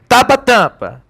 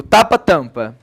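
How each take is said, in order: First: High, blocked-nose pronunciation demo; pinched-nose voice, pitched up. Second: Said in the usual way. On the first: Shown as a demonstration. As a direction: say it holding your nose shut. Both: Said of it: "Fecha o nariz".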